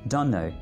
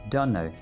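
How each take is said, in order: The two takes are said the same way.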